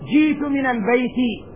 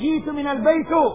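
First: The last word ends with an i vowel. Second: The last word does not end with i. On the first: The speaker calls it right. "بالكسر" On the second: The speaker calls it wrong. "لا تقول جئت من البيت، عجمي ما تفهم"

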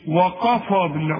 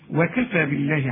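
First: The k sound is heavy and thick. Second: The k sound is light and thin. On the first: The speaker calls it wrong. "انما ما تقولش" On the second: The speaker calls it right. "زي ما تقول إيه؟"

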